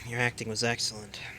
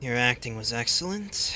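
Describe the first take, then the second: First: The voice falls at the end like a statement. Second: The voice rises at the end like a question. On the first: It is a plain statement. The speaker calls it right. "It is not meant to sound like a question" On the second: It sounds like a question. The speaker calls it wrong. "that sounded like a question"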